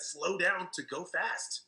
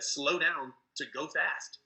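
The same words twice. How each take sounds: First: Drawn out very slowly, word by word; slow advice. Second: Slowed right down, each word spaced out; slow advice. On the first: Mentor repeating his key advice to Pat, very slow. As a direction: let each word land slowly. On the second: Mentor telling an over-eager recruiter to slow down, slow and deliberate. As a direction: say it slowly, the way you preach it. Gene's advice, talk less. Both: Retold or imitated.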